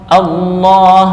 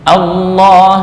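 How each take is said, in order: Both takes have the same delivery.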